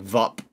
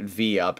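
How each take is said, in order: First: It is spelled out as three separate letters. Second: It is said as the letter V plus 'up'. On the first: "it's spelled V U P like V U P" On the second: "they call it V up"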